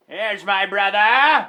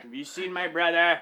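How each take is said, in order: First: Louder, slow, hammed-up call; mock call. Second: Said in the usual way. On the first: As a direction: drag it out like a joke shout. Colonel searching for brother.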